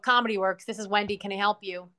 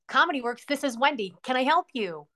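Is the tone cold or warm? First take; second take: cold; warm. First: It sounds curt and cold. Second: It sounds friendly and warm.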